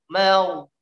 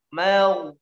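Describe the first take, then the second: Both takes have the same delivery.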